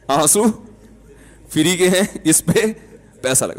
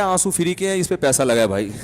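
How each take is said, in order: First: آنسو and free کے ہیں lifted, slowly, with pauses between the phrases; slow emphatic repeat. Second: Said in the usual way. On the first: Shown as a demonstration. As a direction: drive home آنسو free کے ہیں word by word. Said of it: "repeats the punchline slowly". (آنسو free کے ہیں کو ٹھہر ٹھہر کر زور سے)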